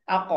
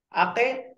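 First: "আক" bounced into a rounded o sound; upward qalqalah. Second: "আতে" bounced into a thin e sound; wrong qalqalah. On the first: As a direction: echo the end of "আক" heavy and rounded. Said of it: "উপরের দিকে". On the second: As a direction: let the end of "আতে" slip forward into a light e. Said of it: "এভাবে নয়". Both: Shown as a demonstration.

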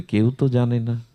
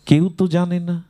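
First: Said in the usual way. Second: Higher-pitched, puzzled emphasis; retold amazement. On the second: Mahaprabhu marvels that no one knows, acted as amazed. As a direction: act out astonishment that nobody knows. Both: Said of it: "অবাক হয়ে মহাপ্রভু বলছেন".

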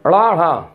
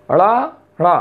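First: ड़ा, ढ़ा with a quick tongue flap; recalling the flapped letters; flapped sounds. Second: ड़ा, ढ़ा flapped, set against plain डा ढा; showing the flap against the stop. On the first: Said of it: "मैंने बोला था". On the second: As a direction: contrast ड़ा with डा. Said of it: "ये आपका डा और ढा है". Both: Shown as a demonstration.

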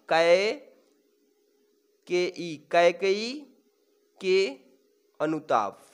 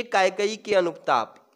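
First: "Kaikeyi के अनुताप" slowly, pausing between words; word-by-word dictation. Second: Said in the usual way. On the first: Shown as a demonstration. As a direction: break "Kaikeyi के अनुताप" into separate, drawn-out pieces. Teacher dictates title word by word. ("Kaikeyi के अनुताप" को रुक-रुक कर धीरे बोलें)

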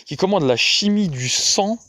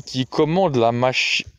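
First: Commande lifted and stressed, line rising; corrected reading. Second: Said in the usual way. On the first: A narrator's reading. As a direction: fix the slip by leaning on commande. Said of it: "corrected reading". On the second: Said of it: "misread then corrected".

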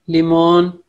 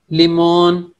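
Both takes have the same delivery.

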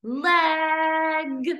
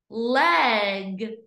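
First: "Leg" higher, with a long held vowel; stretched short E. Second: Said in the usual way. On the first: Shown as a demonstration. Teacher confirming the short E for pupils, stretched vowel. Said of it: "Short E". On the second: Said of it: "What sound do you hear".

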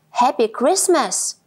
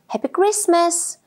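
First: Said in the usual way. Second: A bright, higher cheerful shout; shouted greeting. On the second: A narrator's reading. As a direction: call out the greeting across the forest. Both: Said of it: "shouted Squirrel".

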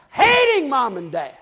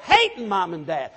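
First: "hating" drawn out high and loud; emphatic repeat. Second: Said in the usual way. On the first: Real, not acted. Preacher warning how children end up, "hating" stretched loud. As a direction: lean hard and long on "hating", then fall away.

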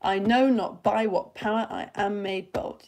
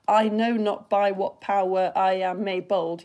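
First: Slow weak-strong beat, "power" squeezed into one; poke and slap beat. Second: Slow, even syllables with "power" in two; counting syllables. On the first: Teacher fitting the line into five beats, rhythmic. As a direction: beat out "i KNOW not BY what POWER" in pairs. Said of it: "but if you poke slap it". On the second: Teacher counting on fingers as before learning better, evenly spaced. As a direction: count out each syllable of "I know not by what power". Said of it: "if you were counting on your fingers". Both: Shown as a demonstration.

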